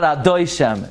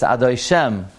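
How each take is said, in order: First: Adoi Shem stressed on DOI, Shem left weak; mispronounced Adoi Shem. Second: Adoi Shem with full stress on Shem; correct Adoi Shem. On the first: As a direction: say a-DOI-shem, hitting the middle. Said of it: "It's not Adoi Shem". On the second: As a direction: say adoi-SHEM, landing on the last syllable. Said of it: "it's Adoi Shem". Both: Shown as a demonstration.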